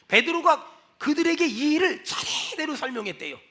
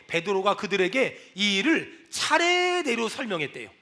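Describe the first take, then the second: First: 차례대로 opened with a long breathy 차; stress on 차례대로. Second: 차례대로 held long on 례, low voice; stress on 차례대로. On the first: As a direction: stretch the 차 in 차례대로 at normal pitch. Repeats verse with heavier stress. (차례대로의 '차'를 숨 섞어 길게 늘여 강조) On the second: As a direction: lower the line and stretch the 례 in 차례대로. First take of key verse. (낮은 목소리로 차례대로의 '례'를 길게 강조) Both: Shown as a demonstration.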